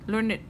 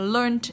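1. Phần kết thúc là âm tiết id thêm vào, hai âm tiết. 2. Phần kết thúc là âm d đơn thuần, một âm tiết. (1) "Nhưng nếu nó là tính từ ... Chúng ta đọc là learned" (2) "nếu mà learned là một động từ chia thì quá khứ chúng ta đọc vẫn đọc là learned như bình thường"

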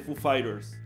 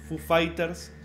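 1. El nombre se pronuncia con sonidos de estilo inglés. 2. El nombre se pronuncia con sonidos de estilo español. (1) "en vez de Foo Fighters" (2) "los argentinos decimos Foo Fighters"

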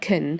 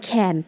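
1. สระลดเสียงเหลือ schwa 2. สระออกเสียงเต็มและชัดเจน (1) "ไปอยู่ในประโยคเช้าจะอ่านว่า" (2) "เดียวๆเนี่ยก็จะอ่านว่า can ปกติ"

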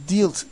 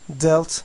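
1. Sesli harf uzun, 'deal' sözcüğündeki gibi. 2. Sesli harf kısa, 'felt' sözcüğündeki gibi. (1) "Bu fiili dealt diye okuyanlar var. Lütfen buna dikkat edin. Öyle bir okunuş yanlıştır" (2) "Sanki burada A harfi yokmuş gibi düşünün"

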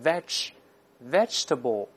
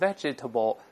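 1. 中间的元音不发音，省略掉。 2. 中间的元音要读成一个音节。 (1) "而是vegetable" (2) "咱不能读成vegetable"

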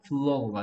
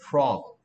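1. 이 단어는 L 같은 소리로 시작해요. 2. 이 단어는 R 같은 소리로 시작해요. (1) "L 소리 내고 있는 이유는 너 이거 발음하고 있는 거야" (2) "플로그가 아니고 프로그"

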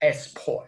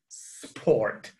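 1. Un sonido vocálico extra va antes de la s. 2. La palabra empieza directamente con el sonido s. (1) "no digan sport" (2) "es sport"

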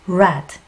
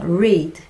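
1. 이 단어는 'red'처럼 정확히 들려요. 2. 이 단어는 'red'처럼 들리지 않아요. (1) "발음은 red. 빨간색이랑 똑같이 합니다" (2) "읽다라는 건데요"

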